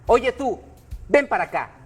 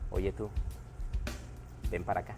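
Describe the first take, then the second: First: It is said in a plain, neutral tone. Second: It is said in a flirtatious, playful tone.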